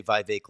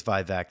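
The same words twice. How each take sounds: First: Vivek said as VY-vake; rhymed with cake. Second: Vivek said as VY-veck; usual pronunciation. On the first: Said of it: "say Vivek like cake". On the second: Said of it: "I have heard him say Vivek like cake". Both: Shown as a demonstration.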